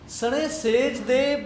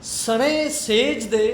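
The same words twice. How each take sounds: The two takes are said the same way.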